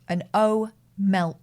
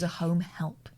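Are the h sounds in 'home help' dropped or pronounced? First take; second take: dropped; pronounced. First: The h sounds are dropped and the words run together. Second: The h sounds are pronounced in both words. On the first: It is how a relative said the term. "because of the way she said it, she was an O-melp" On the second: It is the actual name of the job. "Turns out she was a home help"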